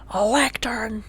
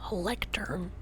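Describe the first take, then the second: First: Excited. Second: Hushed whisper. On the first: Same word said aloud. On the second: Showing Pixel a lectern, whispered. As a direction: breathe the word lectern, no voice. Whispered then repeated aloud. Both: Real, not acted.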